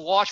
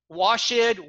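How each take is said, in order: First: The -ed ending is a single t sound. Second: The -ed ending is said as its own syllable. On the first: The speaker calls it right. "wash with a T" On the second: The speaker calls it wrong. "I mispronounced"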